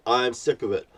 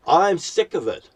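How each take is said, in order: First: Said in the usual way. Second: Higher, louder, spat out in anger; angry outburst. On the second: Real, not acted. Ranting at the world, fed up, louder outburst. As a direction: burst out fed up.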